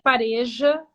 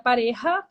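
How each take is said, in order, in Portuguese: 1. O 'j' é um zumbido suave, como um 'zh'. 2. O 'j' é um som gutural e rouco, parecido com um h. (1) "Brasil né, é pareja, mesmo com J" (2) "A pronúncia na Espanha seria pareja, porque o J tem som de R"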